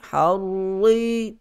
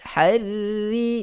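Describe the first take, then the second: First: The r is pronounced thick and heavy. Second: The r is pronounced thin and light. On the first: "harri harri tebal" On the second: "harri nipis"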